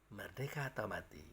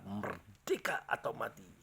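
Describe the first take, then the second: First: It is said quietly, with little energy. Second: It is said loudly, with strong energy. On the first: It could not rouse a nation's spirit. The speaker calls it wrong. "Kalau hanya berkata" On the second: It rouses a nation's spirit. The speaker calls it right. "Dia harus berkata"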